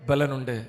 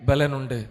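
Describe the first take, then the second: The two takes are said the same way.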